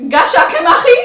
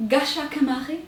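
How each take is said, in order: First: Mock taxi man booming louder; a loud teasing correction. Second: Said in the usual way. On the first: Taxi man correcting her, loud and teasing.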